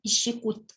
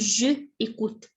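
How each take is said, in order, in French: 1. La voyelle de « je » est totalement omise. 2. La voyelle de « je » est prononcée entièrement. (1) "هنقول j'écoute" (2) "ما ينفعش أقول je écoute"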